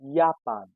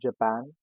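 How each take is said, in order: First: The word begins with a 'y' sound. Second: The word begins with a 'j' sound. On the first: "we call it Japan" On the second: "Next is Japan"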